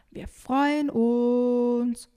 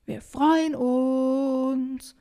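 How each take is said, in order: First: Very drawn-out, higher call; loud, long held vowels. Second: High, very drawn-out shout; louder calling. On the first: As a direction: shout it slowly across the lake. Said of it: "ruft Emily". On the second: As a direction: call insistently across the water. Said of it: "versucht Emily es noch einmal lauter". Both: Acted.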